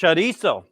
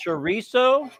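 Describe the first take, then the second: First: CHORIZO with a tapped r; Spanish-style pronunciation. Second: CHORIZO with an American r; American pronunciation. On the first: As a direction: say CHORIZO as 'chuh-DEE-so'. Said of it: "Or is it". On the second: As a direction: say CHORIZO as 'chuh-REE-so'. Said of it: "how do you pronounce chorizo". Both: Shown as a demonstration.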